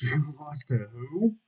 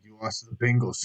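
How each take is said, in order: First: Slow, rising, amused disbelief; laugh, then ask in mock shock. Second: Said in the usual way. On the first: Incredulous reaction to the taunt. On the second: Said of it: "It used to be like".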